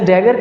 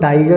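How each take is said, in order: First: The first vowel sounds like the vowel in cat. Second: The first vowel sounds like the vowel in eye. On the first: This is the standard form of the word. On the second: This is how people in villages commonly say it.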